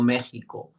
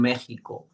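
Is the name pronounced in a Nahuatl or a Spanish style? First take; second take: Spanish; Spanish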